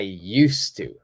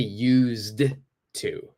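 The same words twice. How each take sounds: First: The D sound in 'used' is silent. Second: The D sound in 'used' is pronounced. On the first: The speaker calls it right. "So the D is silent. Don't say the D" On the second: The speaker calls it wrong. "I don't say used to"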